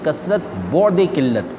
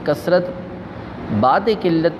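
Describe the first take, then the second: First: The middle word is said with an 'au' vowel. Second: The middle word is said with an 'aa' vowel. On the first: It means abundance far from scarcity. The speaker calls it right. "इसको बौद पढ़ना चाहिए" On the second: It means abundance after scarcity. The speaker calls it wrong. "ऐसा नहीं"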